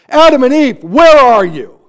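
It is said in an angry, harsh tone. The caller is angry at them. The speaker calls it wrong. "if you hear him as an angry father"

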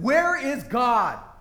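It is asked angrily, as if losing control.

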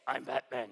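It is said in a raspy Batman voice.

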